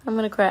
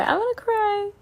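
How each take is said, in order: First: Said in the usual way. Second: Much higher, whiny mock sob voice; hammed-up teary squeak; mock crying whine. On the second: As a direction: play at crying, squeaky and pitched up.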